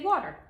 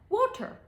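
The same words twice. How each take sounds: First: The T is softened like a D. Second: The T is pronounced crisply.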